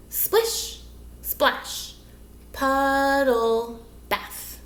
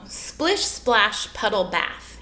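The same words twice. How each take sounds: First: "Splish, splash, puddle, bath" one beat at a time, with pauses; syllable counting. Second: Said in the usual way. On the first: Shown as a demonstration. Teacher counting syllables with children, "Splish, splash, puddle, bath" in slow separate beats. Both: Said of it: "Let's count our syllables".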